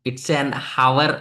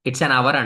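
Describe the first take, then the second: First: The word hour starts with an h sound. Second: The word hour starts with a vowel sound. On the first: The speaker calls it wrong. "అనం" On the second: The speaker calls it right. "అంటాం"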